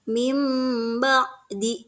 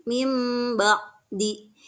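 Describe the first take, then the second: The two takes are said the same way.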